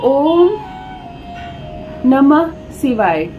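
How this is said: The phrase is broken by a pause midway. The speaker calls it wrong. "टूट गया"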